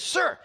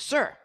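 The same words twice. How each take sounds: First: It is said loudly, with a raised voice. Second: It is said somewhat louder.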